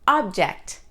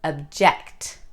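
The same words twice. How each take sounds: First: The stress is on the first syllable. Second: The stress is on the second syllable. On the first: It is used as a noun. "The noun" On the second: It is used as a verb.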